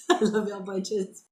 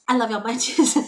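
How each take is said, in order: First: Said in the usual way. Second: Louder put-on goofy voice; silly sign-off voice. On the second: Shown as a demonstration. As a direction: sing out the goodbye in a funny voice.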